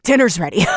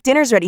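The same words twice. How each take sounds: First: Dull repeat in his own voice; lightly voiced brooding brother; flat brother echo. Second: Chirpy sister calling out; a higher, cheerful announcement; mock cheerful call from sister; bright sister call. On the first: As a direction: echo it back flatly. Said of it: "He's like". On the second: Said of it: "she's like".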